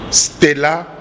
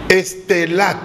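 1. Le mot commence directement par le groupe st. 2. Une voyelle e en trop vient avant le st.

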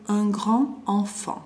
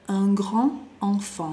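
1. 'grand' se une a 'enfant' con sonido d. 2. 'grand' se une a 'enfant' con sonido d.

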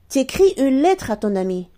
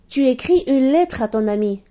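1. La voyelle de 'tu' est entièrement supprimée. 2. La voyelle de 'tu' est entièrement prononcée.

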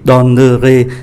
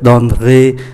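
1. Nguyên âm ở giữa được phát âm, nên có ba âm tiết. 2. Nguyên âm ở giữa bị bỏ qua, nên chỉ còn hai âm tiết. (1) "thay vì donnerai" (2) "không phát âm syllabe ở giữa có mang ký tự ơ. Như vậy chỉ còn hai"

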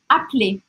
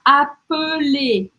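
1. A vogal do meio é omitida. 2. A vogal do meio é totalmente pronunciada. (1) "A gente fala appeler" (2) "Ele não precisa falar appeler"

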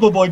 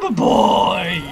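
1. Le nom est prononcé à la manière anglaise. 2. Le nom est prononcé à la française.

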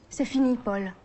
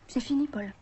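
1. La réplique est dite d'une façon plus dure, plus sèche. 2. La réplique est dite d'une façon plus douce, plus tendre.

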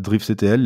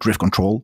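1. La fin s'épelle en trois lettres. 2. La fin se dit comme le mot « control ». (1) "en français on dit plutôt j'ai l'impression" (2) "en anglais les gens ont plutôt l'air de dire"

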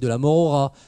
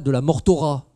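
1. Un son r se lie au mot suivant. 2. Un son t se lie au mot suivant. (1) "vous dites" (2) "Vous ne dites pas"

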